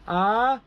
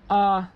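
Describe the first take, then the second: First: The pitch goes from low to high. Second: The pitch stays level in the middle. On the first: "rising tone" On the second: "flat tone, as you don't as if you don't care"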